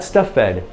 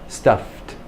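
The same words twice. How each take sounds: First: The -ed ending is not pronounced as a T. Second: The -ed ending is pronounced as a T. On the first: The speaker calls it wrong. "Not stuffed. No, no, no. Native speakers don't say stuffed" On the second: The speaker calls it right. "that E D, which comes after an F, is a T"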